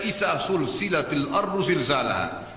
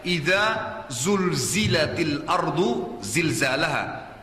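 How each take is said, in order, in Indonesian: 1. Kata-kata pembuka menggunakan bunyi s yang mendesis. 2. Kata-kata pembuka menggunakan bunyi z yang bergetar. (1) "izanya sudah salah diganti dengan sin" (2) "Pertama pakai zal dulu, idza, lidahnya ditekan ke atas. Yang kedua zai, bergetar lidahnya"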